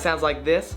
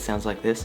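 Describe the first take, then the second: First: The voice is very loud. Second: The voice is very quiet. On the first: "If I talk really loud" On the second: "If I talk really quiet"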